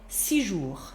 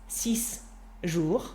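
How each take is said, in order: First: The s sound of six is dropped. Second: The s sound of six is pronounced. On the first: The speaker calls it right. "Get rid of the last sound" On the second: The speaker calls it wrong. "doesn't sound very nice"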